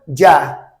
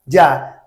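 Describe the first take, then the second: First: It is said with a Latin American Spanish accent. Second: It is said with a Latin American Spanish accent.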